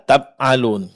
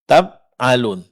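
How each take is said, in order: First: The middle consonant sounds like a b. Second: The same.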